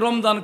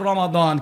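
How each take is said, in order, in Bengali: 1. মাঝের ব্যঞ্জনটি z উচ্চারণ। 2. মাঝের ব্যঞ্জনটি d উচ্চারণ। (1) "কেউ রমজান কই" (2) "আসলে শব্দ হবে রমাদান"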